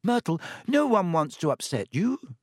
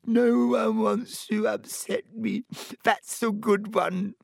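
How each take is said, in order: First: Higher, coaxing reassurance; placating. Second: High, slow wail of self-pity; howling. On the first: Hermione calms the offended ghost, placating. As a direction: soothe her earnestly. Hermione soothes upset Myrtle. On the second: Myrtle throws Hermione's words back, howling. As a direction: howl it back in hurt scorn. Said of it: "howled Myrtle". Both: A narrator's reading.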